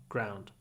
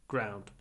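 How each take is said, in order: The two takes are said the same way.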